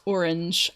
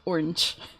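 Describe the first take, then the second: First: It is said fuller, in a British accent. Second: It is said short, in a Southern American accent. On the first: "but of course here it's orange" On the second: "I say orange as one one word, orange. I delete some of the letters in there"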